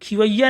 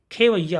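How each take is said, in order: First: खिवैया begun with short "khi"; wrong first vowel. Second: Said in the usual way. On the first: Shown as a demonstration. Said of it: "नहीं होता". (खिवैया में खि) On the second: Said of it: "होता".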